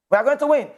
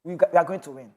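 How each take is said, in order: First: Higher, ringing declaration of victory; confident cry. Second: Said in the usual way. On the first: Real, not acted. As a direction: lift it up like a rallying promise. Repeats the claim, then stronger.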